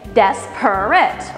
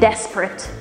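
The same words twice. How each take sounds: First: All three syllables are clearly pronounced. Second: The middle syllable is dropped entirely. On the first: "you speak syllabically" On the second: "we don't need that middle syllable"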